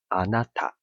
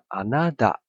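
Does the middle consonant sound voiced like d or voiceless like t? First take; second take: voiceless t; voiced d. First: The consonant before the last vowel is a voiceless t. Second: The consonant before the last vowel sounds like voiced d. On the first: "日文的你叫做あなた" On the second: "可是你听起来会有点像あなた"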